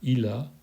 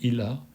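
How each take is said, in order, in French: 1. Les deux mots s'enchaînent comme un seul mot. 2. Les deux mots s'enchaînent comme un seul mot.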